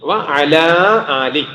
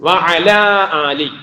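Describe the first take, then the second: First: The middle vowel is kept, giving 'wa-ala ali'. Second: The same.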